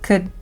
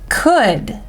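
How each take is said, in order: First: The word is said with a reduced vowel. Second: The word is said with a full vowel.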